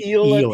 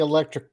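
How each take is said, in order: First: It begins with a long 'ee' sound, like eel. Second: It begins with a short 'eh' sound, like electric. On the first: The speaker calls it right. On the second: The speaker calls it wrong.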